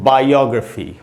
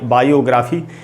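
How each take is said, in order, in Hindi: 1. 'gra' का स्वर एक रिड्यूस्ड श्वा है। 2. 'gra' का स्वर एक पूर्ण स्वर है। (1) "इसको श्व साउंड बोलते हैं, इससे आधा अ का साउंड निकलता है" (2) "जैसा कि अक्सर आपने हिंदी में इसको लिखा हुआ देखा होगा"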